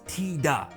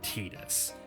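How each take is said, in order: First: The name ends in a vowel, no s. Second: The name ends with an s sound. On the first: "It's Tida in Japanese" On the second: "I said Tidus"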